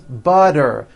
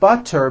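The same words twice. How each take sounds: First: The middle consonant is a voiced D sound. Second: The middle consonant is a clear T sound.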